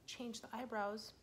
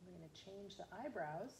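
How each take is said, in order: First: Eyebrows said slowly and drawn out for emphasis; stress on eyebrows. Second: Said in the usual way. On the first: Shown as a demonstration. Teacher repeating the step for children, stressing eyebrows. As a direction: lean on the word eyebrows and stretch it.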